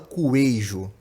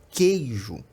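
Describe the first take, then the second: First: A 'u' sound is heard after the k. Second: No 'u' sound is heard after the k. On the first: The speaker calls it wrong. "A gente não fala coejo" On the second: The speaker calls it right. "a gente fala queijo"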